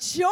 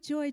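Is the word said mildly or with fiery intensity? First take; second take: fiery; mildly. First: It is said loudly and with fire. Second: It is said softly and mildly.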